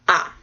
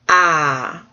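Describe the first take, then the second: First: The syllable is short with no pitch movement. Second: The pitch falls sharply from high to low. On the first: "the last one is just ah. And it's short" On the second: "did I do the down one?"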